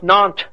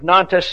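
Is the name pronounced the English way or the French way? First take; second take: French; English. First: The name is said with French sounds. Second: The name is read with English spelling sounds. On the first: "pronounced Nantes, by the way, by the French" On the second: "I'm pronouncing it as an American would see it"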